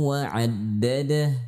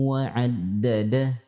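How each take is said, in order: No difference in how they are said.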